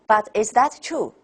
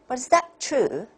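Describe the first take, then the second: First: Every word has the same flat, forceful pitch. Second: The key word is longer, higher and louder. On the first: The speaker calls it wrong. "toneless, force all the way" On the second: The speaker calls it right. "I'll give you one option"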